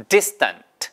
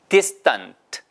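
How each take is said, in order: No difference in how they are said.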